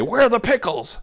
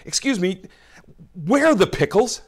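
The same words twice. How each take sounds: First: Higher and louder, fed-up demand; exasperated. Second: Higher-pitched, impatient question to a store clerk; exasperated. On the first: Preacher acting a shopper asking the clerk, exasperated and louder. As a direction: snap the question at the clerk, impatient. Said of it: "in an exasperated way say". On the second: Shopper asking a grocery clerk, exasperated and higher. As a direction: sound fed up after searching every aisle. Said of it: "you're a little exasperated". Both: Pretend.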